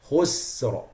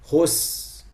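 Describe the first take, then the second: First: The word ends with a clear r sound. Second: The word ends on the s; no r. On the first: The speaker calls it right. "the ra has to be clear" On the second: The speaker calls it wrong. "The ra is gone. They stopped on sin. Khus, like this"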